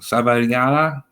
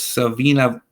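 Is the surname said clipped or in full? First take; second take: full; clipped. First: The surname is said with all its syllables. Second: The surname is said short, with syllables dropped. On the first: The speaker calls it right. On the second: The speaker calls it wrong.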